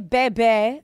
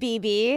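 First: It is said with different vowels, not letter names. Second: It is said like the letter B twice. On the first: This is how some other people say it. The speaker calls it wrong. "people say Bebe" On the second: This is how the speaker always said it. The speaker calls it right. "I always pronounced it BB"

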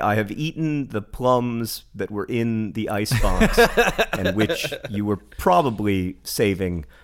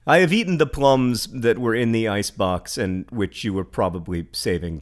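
First: It is read in a dramatic, poetic way. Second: It is read in a fairly plain, everyday way. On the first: "I can read that one much more poemy" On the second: "I didn't do that too poemy, did I?"

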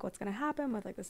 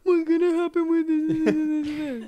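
First: It sounds sincere and genuinely anxious. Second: It sounds exaggerated and mocking. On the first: The worry is felt for real. "when I'm having a hard time with something or like really worried about something" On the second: The worry is being made fun of. "I'll like say it to myself in this voice"

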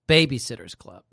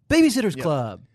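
First: The phrase is said plainly, in a normal voice. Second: The phrase is said dramatically, in a put-on voice. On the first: The speaker calls it wrong. "And she doesn't say it like that" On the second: The speaker calls it right. "She says it like an actor would"

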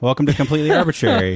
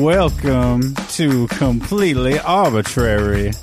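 First: It is spoken in the speaker's plain accent. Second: It is spoken in a Southern American accent.

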